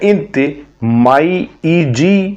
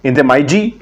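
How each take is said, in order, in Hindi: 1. 'ji' से पहले एक अलग 'ee' स्वर बोला जाता है। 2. 'ji' से पहले का 'ee' स्वर हटा दिया जाता है। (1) "अलग अलग लिख के बता" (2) "घसीट लोकल में बोलेंगे"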